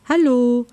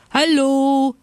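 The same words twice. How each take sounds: First: High, loud questioning hello. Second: High, loud drawn-out hello; shouting from afar. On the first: Little bear checks on a motionless seal, questioning. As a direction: ask a high, probing hello. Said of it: "fragte er". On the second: Bears galloping over the snow greet friends, shouting. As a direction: holler a greeting across a field. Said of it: "schrien sie schon von weitem". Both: A narrator's reading.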